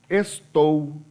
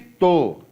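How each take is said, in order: First: The word is said with both syllables. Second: The word is shortened to one syllable. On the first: It is the standard way of speaking. "eu posso falar estou" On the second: It is a popular, informal way of speaking. "variação popular de pronúncia"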